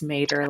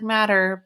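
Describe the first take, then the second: First: It sounds like the end of 'tomato'. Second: It sounds like the everyday word 'matter'. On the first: The speaker calls it right. "It's Mater, like the truck" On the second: The speaker calls it wrong. "his last name looks like Matter, but it's not"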